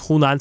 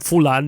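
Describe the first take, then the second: First: It begins with H and has N inside. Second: It begins with F and has L inside.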